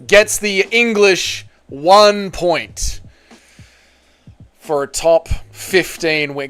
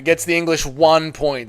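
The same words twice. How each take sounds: First: Slow, drawn-out announcer call; announcer read. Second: Said in the usual way. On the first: Acted. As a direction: stretch it like a ring announcer.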